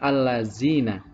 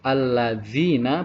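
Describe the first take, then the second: First: The consonant sounds like a plain 'z'. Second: The consonant sounds like 'th' in 'this'. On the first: The speaker calls it wrong. "bukan allazina" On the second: The speaker calls it right. "pengucapan dal harus alladzina"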